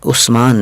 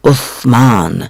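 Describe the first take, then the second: First: The middle consonant is a plain 's' sound. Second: The middle consonant is a soft 'th' sound. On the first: The speaker calls it wrong. "उस्मान नहीं कहना चाहिए" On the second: The speaker calls it right. "बल्कि उस्मान कहना चाहिए"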